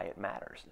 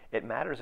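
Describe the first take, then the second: First: Said in the usual way. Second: "It matters" restated with lifted stress on "matters"; emphatic repeat. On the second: Real, not acted. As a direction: hit "matters" harder on the repeat. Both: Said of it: "repeats it matters for emphasis".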